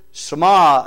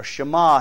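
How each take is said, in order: First: Shema said "suh-MAH", opening on a plain S; Shema with S sound. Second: Shema said "shuh-MAH", opening on SH; Shema with SH sound. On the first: Preacher giving the Hebrew for hear, Shema said "suh-MAH". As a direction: say Shema starting with S, not SH. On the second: Preacher offering another way to say it, Shema said "shuh-MAH". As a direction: say Shema starting with a hushing SH. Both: Shown as a demonstration. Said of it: "however you want to say it".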